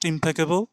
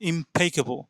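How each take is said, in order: First: The second syllable is not stressed. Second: The second syllable is stressed. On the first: The speaker calls it wrong. "not impeccable" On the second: The speaker calls it right. "এই যে সিলেবলটা আছে এখানে একটু একটু বেশি জোর করে আওয়াজ দিতে হবে"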